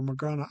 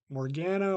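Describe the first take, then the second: First: Morgana said muh-GAH-nuh, middle A as in "father"; broad-A pronunciation. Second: Morgana said mor-GAN-uh, middle A as in "cat"; flat-A pronunciation. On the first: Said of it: "they pronounce it as Morgana". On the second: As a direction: rhyme the GAN of "Morgana" with "can". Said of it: "I don't know how to say it". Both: Shown as a demonstration.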